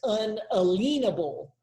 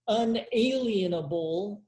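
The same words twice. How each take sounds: First: The middle part sounds like the word lien. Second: The middle part sounds like the word alien. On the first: It ties the word to a lien on property. "I actually like the pronunciation that's unalienable" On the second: This is the commonly taught pronunciation. "like we all have been taught in grade school"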